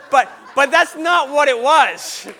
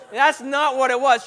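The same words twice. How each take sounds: First: Slow, loud insistence over laughter; emphatic, half-laughing objection; loud protest. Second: Said in the usual way. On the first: Real, not acted. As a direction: shout the correction, drawing it out. Emphatic denial over audience laughter.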